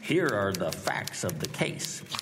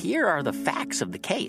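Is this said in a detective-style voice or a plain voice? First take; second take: detective-style; plain. First: It is said in a put-on detective voice. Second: It is said in an ordinary speaking voice. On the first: The speaker calls it right. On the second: The speaker calls it wrong.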